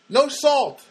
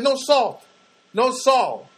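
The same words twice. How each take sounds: First: Higher, louder questioning no salt; the staffer repeating the order in disbelief; mock puzzled question. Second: Higher, louder firm no salt, each said with force; insistent repeat. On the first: Server baffled by no salt. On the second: Retold or imitated. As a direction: drive the point home to a confused server. Insisting on his order.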